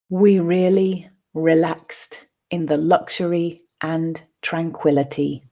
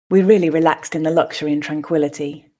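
First: The sentence is spoken slowly. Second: The sentence is spoken at a natural pace. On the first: "the first time slowly" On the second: "the second two at a more natural pace"

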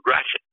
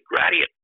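First: The name is said as 'Gratiot', not 'gradient'. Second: The name sounds like the word 'gradient'. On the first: The speaker calls it right. "Instead of Gratiot" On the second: The speaker calls it wrong. "I pronounce it Gradient"

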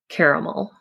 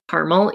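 First: The word is pronounced the way it is spelled. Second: The word is not pronounced the way it is spelled. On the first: The speaker calls it right. "it is pronounced caramel. That's how it's spelled" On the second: The speaker calls it wrong. "So I say caramel, even though it's spelled caramel"

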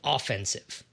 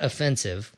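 First: The stress falls on the first syllable. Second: The stress falls on the second syllable. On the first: It means being on the attack. "Let's start with offensive" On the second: It means insulting or rude. "not offensive, which is a different way to pronounce the word with a different meaning"

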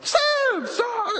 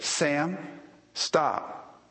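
First: It is yelled loudly. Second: It is said calmly, without yelling.

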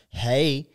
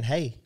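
First: It is said in a harsh, mean way. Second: It is said in a plain, friendly way.

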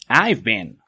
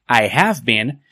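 First: The word have is contracted to 've. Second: The word have is said in full. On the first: The speaker calls it right. "que digas I've been" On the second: The speaker calls it wrong. "en vez de decir I have been"

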